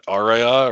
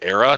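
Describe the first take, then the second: First: The name is said with three syllables. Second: The name is said with two syllables. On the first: The speaker calls it wrong. "not Aria or whatever" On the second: The speaker calls it right. "it's called Era"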